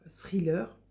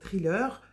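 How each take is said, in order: First: It is said with an English accent. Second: It is said with a French accent.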